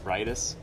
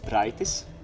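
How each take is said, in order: First: It is said with an English R sound. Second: It is said with a Latvian R sound. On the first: "while in English it's rightus" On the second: "So in Latvian, the R is a little different"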